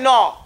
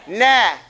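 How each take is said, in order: First: The vowel is said with rounded lips. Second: The vowel is said with an open mouth. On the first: The speaker calls it wrong. "you don't say no. You don't make your mouth round" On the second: The speaker calls it right. "You say nah"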